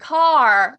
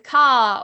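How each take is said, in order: First: It is said in an American accent. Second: It is said in a southern English accent.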